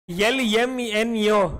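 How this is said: Each letter name begins with a 'y' sound. The speaker calls it wrong. "you all say yell"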